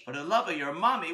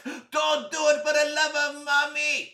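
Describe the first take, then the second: First: Puzzled repeat in a normal voice; puzzled echo. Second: High, loud, desperate cry; panicked plea. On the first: Boy questions his friend's odd plea, puzzled. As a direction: echo it back in disbelief, no shouting. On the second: Friend begs boy not to press button, panicked shout. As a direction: shout it as a frantic last plea. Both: Acted.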